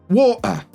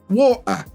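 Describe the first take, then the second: Both takes have the same delivery.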